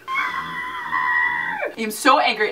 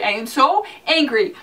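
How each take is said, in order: First: Slow, stretched mock angry line; slow theatrical I am so angry; drawn-out mock fury. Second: Said in the usual way. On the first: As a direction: drag every word like a wounded fan.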